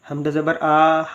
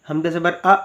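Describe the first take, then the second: First: It is read with the vowels stretched long. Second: It is read with an abrupt, jerky cut-off. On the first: It sounds like a standing zabar. "अगर इसको खींच कर पढ़ेंगे" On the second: It sounds like a letter carrying a jazm. "अगर झटका देकर पढ़ेंगे"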